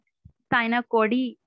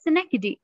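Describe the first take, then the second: First: The word begins with 'sai', as 'sai-na-ko-dee'. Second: The word begins with 'si', as 'si-nek-duh-kee'. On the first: The speaker calls it wrong. "mostly लोग इसको गलत पढ़ते हैं" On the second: The speaker calls it right. "लेकिन ये है Snackdy"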